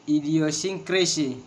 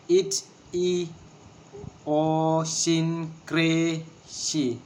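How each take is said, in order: First: Said in the usual way. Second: "Idiosyncrasy" very slowly in separate syllables; long even syllables with gaps between. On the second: Shown as a demonstration. Teacher showing a word of six syllables, syllable by syllable. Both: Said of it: "six syllables".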